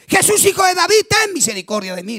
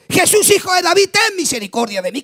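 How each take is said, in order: First: Grito de súplica. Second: Clamor de súplica, más alto, a todo pulmón; grito más fuerte. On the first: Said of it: "Le gritaba bien fuerte". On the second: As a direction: grita para que Jesús te oiga. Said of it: "Gritó más fuerte". (ciego Bartimeo gritando más fuerte a Jesús para que lo oiga) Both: Retold or imitated.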